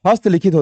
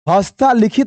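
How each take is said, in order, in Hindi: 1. पहला शब्द बिना किसी स्वर के समाप्त होता है। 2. पहला शब्द लंबे 'aa' स्वर पर समाप्त होता है। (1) "होता है" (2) "नहीं होता है"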